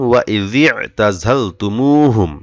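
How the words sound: The phrase is read in one continuous stretch. "এতটুকু একসাথে পড়েছি"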